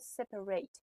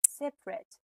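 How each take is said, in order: First: It is said the way the verb sounds. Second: It is said the way the adjective sounds. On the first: The word is used as a verb. "اگه separate در حالت verb بیاد پرونانسیشنش میشه separate" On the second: The word is used as an adjective. "اگه در حالت adjective ما بخوایم ازش استفاده کنیم میشه separate"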